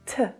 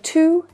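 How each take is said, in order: First: The vowel is reduced to a schwa. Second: The vowel is a full oo sound. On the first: "that too reduces down to the schwa sound" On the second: "Instead of to"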